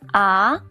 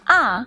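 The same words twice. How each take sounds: First: The pitch rises from middle to high. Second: The pitch falls sharply from high to low. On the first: "Ah is the second tone. The second tone is the rising tone" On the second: "Ah is the fourth tone. The fourth tone is a falling tone"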